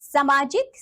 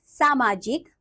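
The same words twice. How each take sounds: First: सामाजिक with a short first vowel; mispronounced सामाजिक. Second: सामाजिक with a long first vowel; correct सामाजिक. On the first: Teacher showing children a wrong form, mispronounced. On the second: Teacher giving children the right form, correctly pronounced. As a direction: say सामाजिक carefully as "saamaajik". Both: Shown as a demonstration. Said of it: "नीचे कुछ अशुद्ध शब्द".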